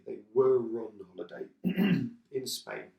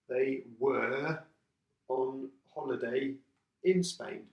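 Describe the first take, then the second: First: The word 'were' is said in reduced form. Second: The word 'were' is said in full form.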